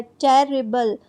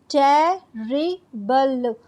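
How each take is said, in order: First: Said in the usual way. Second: terrible broken into three slow, separate syllables; teacher's slow split of terrible into its three syllables. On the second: Shown as a demonstration. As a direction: say terrible slowly, pausing after each syllable. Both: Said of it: "अलग-अलग ऐसे करके बोलते हैं".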